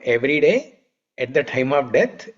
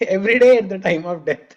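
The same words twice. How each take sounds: First: There is a pause after every day. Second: There is no pause after every day. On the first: The holy names are chanted daily, and also at death. The speaker calls it right. "So there is a comma in between" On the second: One would be dying every day. The speaker calls it wrong. "if you don't pause between every day and at the time of death, it is like dying every day"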